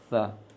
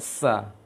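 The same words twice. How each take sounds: First: It begins with a th sound, tongue at teeth. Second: It begins with a hissing s sound. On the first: The speaker calls it right. "ujung lisan ke ujung gigi seri atas" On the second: The speaker calls it wrong. "keliru kalau dibaca sa"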